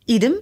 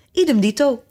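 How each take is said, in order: First: Said in the usual way. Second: Higher, mildly shouted echo; calling out. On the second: A narrator's reading. Fiedeldop echoes his brother's reply, calling out higher. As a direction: pipe it up as a call. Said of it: "riep Fiedeldop".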